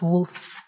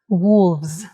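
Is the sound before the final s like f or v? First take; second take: f; v. First: An f sound comes before the final s. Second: A v sound comes before the final s. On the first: The speaker calls it wrong. "not wolves" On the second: The speaker calls it right. "change letter F into V"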